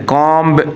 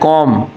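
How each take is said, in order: First: The word ends in a b sound. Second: The word ends in an m sound. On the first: The speaker calls it wrong. "कॉम्ब नहीं होता" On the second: The speaker calls it right. "इसमें बी जो है वो silent है"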